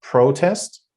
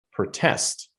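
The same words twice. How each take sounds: First: "protest" as PRO-test, high first syllable; stress on PRO. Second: "protest" as pro-TEST, short first syllable; stress on TEST. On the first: Teacher contrasting the two forms, first syllable stressed. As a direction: lift and lengthen PRO in "protest". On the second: Teacher contrasting the two forms, second syllable stressed. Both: Shown as a demonstration. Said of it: "difference between these two".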